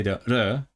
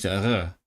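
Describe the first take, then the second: First: "R" as a lone consonant with a short neutral vowel; demonstrated R sound. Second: "R" as the stand-in sound for those who can't say it; substitute R sound. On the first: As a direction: sound out the "R" that some can't say. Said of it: "people can't say the R". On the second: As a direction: swap in a substitute "R". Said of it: "they have to use the R". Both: Shown as a demonstration.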